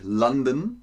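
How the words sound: The name is said with an English pronunciation. "nicht London, wie die Briten"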